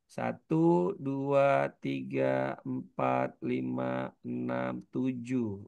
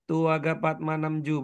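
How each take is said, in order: First: The numbers are counted slowly, one by one. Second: The numbers are counted very fast and run together. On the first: The speaker calls it right. "Pelan-pelan ngitungnya" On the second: The speaker calls it wrong. "bukan gini"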